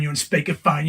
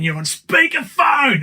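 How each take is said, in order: First: Said in the usual way. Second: High, slow, loud sing-song yell; high drawn-out shout of a warning; kids shouting. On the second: Retold or imitated. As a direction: belt it out like kids in the back seat. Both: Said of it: "'cause they always say".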